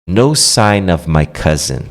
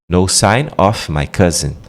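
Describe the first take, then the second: Both takes have the same delivery.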